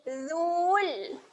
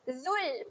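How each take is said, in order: First: The vowel is drawn out long. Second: The vowel is kept short. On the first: The speaker calls it wrong. "Dia tidak bunyi dhul. Itu adalah bunyi yang salah" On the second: The speaker calls it right. "Kita bacakan pendek sahaja seolah-olah waw ini tidak ada"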